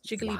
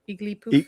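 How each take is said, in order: First: It starts with a J sound, ending puff. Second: It starts without a J sound, ending poof. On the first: "It's Jigglypuff" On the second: "my dad would drop the J"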